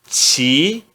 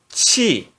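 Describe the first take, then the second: First: The syllable is said in the second tone. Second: The syllable is said in the fourth tone. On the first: "No segundo tom" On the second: "E no quarto tom"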